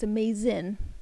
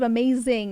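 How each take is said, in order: First: The word ends with a clipped 'in' sound. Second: The word ends with a full 'ing' sound. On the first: "I say in" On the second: "instead of saying ing"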